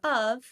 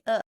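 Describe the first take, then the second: First: 'Of' is said with its full vowel. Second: 'Of' is reduced to a bare schwa sound. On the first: "Instead of of" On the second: "I say uh"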